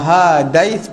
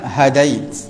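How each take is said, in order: First: The first vowel is held long. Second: The first vowel is kept short. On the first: The word carries no meaning. The speaker calls it wrong. "Kalau hadai panjang, dia dia tidak membawa makna lah" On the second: The word means you guided. The speaker calls it right. "Ha itu dipendekkan"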